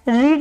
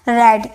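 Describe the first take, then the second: First: The vowel is long, like in 'reed'. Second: The vowel is short, like in 'red'. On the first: It is the base form. The speaker calls it wrong. "रीड नहीं पढ़िएगा" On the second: It is the past participle form. The speaker calls it right. "इसे क्या पढ़ने हैं, रेड"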